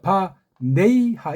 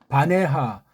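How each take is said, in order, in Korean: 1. 가운데 모음은 'ei' 활음이에요. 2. 가운데 모음은 평범한 'e'예요. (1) "이것도 이라고 하잖아" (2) "혀가 꼬부라진 것이고"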